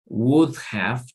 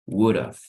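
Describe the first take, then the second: First: Both words are said fully and separately. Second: The words are run together as one contraction.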